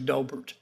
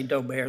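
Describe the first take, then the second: First: It is said the other common way. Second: It is said the Louisiana way. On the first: "some say Dobert" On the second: "some say Dober, I'm from Louisiana, so sometimes we say Dober"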